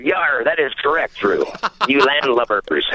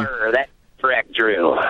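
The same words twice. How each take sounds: First: Repeating a pirate line, laughing; a clearer, laughing pirate voice. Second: Low growly pirate voice, mumbled; a muttered pirate growl. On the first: Retold or imitated. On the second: Acted. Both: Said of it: "that was my best pirate voice".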